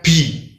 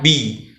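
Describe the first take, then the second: First: The b is released with a puff of breath. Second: The b is voiced clearly with no breath. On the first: The speaker calls it wrong. "Tidak boleh dibaca dengan hames atau hembusan angin" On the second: The speaker calls it right. "wajib dibaca dengan jahar, dengan jelas"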